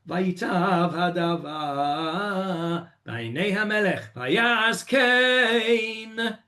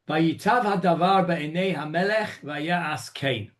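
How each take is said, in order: First: The voice rises at the end. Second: The voice falls at the end. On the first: The listeners should now read the next verse aloud. "you go up at the end of that pasuk" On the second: The verse ends as usual. "the way you would normally end the pasuk"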